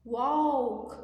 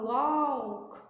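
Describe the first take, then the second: First: Walk com O seco, sem L; walk certo. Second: Walk com L pronunciado; walk errado. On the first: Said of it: "não pronuncia esse U ou esse L". (walk sem o L, O seco) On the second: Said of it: "a gente não fala walk". (walk pronunciado errado, com L) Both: Shown as a demonstration.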